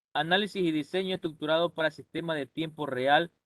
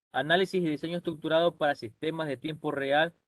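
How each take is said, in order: No difference in how they are said.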